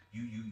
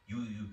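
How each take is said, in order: Both takes have the same delivery.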